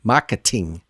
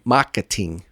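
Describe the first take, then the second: Both takes have the same delivery.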